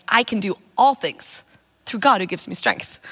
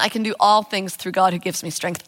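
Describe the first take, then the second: First: Slow, weighty, leaning on "all"; "all" drawn out and stressed, "God" leaned on; savouring the verse. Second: Said in the usual way. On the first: Shown as a demonstration. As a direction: chew on "all things" as you say it. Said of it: "det å tygge på det". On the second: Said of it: "jeg drev og quote".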